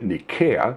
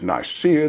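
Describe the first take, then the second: First: The name is said in the ancient Greek way. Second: The name is said in the English way. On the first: "The Greeks pronounced it Nikaea" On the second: "We pronounce it Nicaea"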